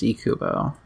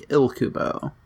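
First: "Ikubo" with a silent L, starting "ee-koo"; intended pronunciation. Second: "Ilkubo" with the L sounded after the I; generic pronunciation. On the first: Co-host giving the supposed pronunciation, "Ikubo" without any L. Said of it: "I think it's supposed to be pronounced Ikubo". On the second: Co-host showing a generic pronunciation, "Ilkubo" with its L sounded. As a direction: say "Ilkubo" as spelled, L included. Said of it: "if you just did a generic, uh, pr-, pronunciation". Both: Shown as a demonstration.

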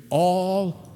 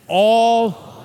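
First: Said in the usual way. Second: All called out louder and higher; enthusiastic call. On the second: Shown as a demonstration. Congregation asked to answer with enthusiasm, All shouted out. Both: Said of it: "Say it with enthusiasm".

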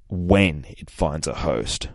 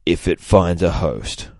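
First: When leaned on, slow and grave; stress on when. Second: Said in the usual way. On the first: Shown as a demonstration. Captain America stressing certainty of the threat, stress on when. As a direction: correct it, hitting when.

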